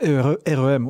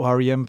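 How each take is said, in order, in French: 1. Les lettres sont prononcées avec des noms de lettres français. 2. Les lettres sont prononcées avec des noms de lettres anglais.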